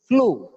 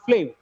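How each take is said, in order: First: The final vowel is a long oo. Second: The final vowel is short. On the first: The speaker calls it right. "the last sound is always oo, long oo" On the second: The speaker calls it wrong. "It is not flew"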